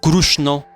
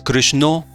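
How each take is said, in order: First: The name is said with an Oriya pronunciation. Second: The name is said with a Bengali pronunciation. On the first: "in Orissa" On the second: "as in Bengalis"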